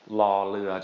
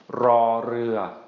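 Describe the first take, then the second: First: It begins with a plain L sound. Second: It begins with a rolled R sound. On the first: "just an L sound" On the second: "that rolled R"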